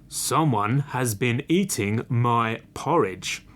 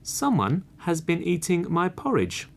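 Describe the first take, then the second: First: It is said in a big, deep voice. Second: It is said in a medium-pitched voice.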